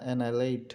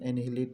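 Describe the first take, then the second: First: No h sound is heard mid-word. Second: An h sound is heard mid-word. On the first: The speaker calls it right. "অ্যানাইলেট হবে" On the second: The speaker calls it wrong. "অ্যানিহিলেট না"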